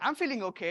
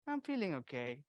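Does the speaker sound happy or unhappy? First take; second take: happy; unhappy. First: It sounds cheerful and positive. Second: It sounds low and negative. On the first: The person is really fine. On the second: The person is not really fine.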